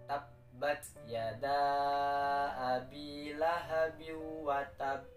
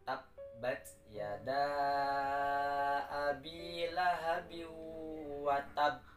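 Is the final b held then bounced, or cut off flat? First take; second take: flat; held, bounced. First: The final b is cut off flat. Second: The final b is held, then bounced. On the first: The speaker calls it wrong. "tidak ada qalqalah dan tidak ditahan terlebih dahulu" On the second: The speaker calls it right. "ditahan di huruf ba karena ada tash tasydid"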